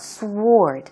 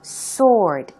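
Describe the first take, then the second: First: The W sound is pronounced after the S. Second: The W sound is silent after the S. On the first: The speaker calls it wrong. "It's not sword" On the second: The speaker calls it right. "the W is not pronounced. So it sounds like S O R D"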